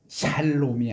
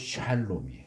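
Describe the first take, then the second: First: It starts with a plain Korean s sound. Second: It starts with an English sh sound. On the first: The speaker calls it wrong. "샬롬이 아니고" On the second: The speaker calls it right. "영어의 쉬, 에스에이치 발음이에요"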